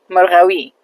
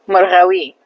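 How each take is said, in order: Both takes have the same delivery.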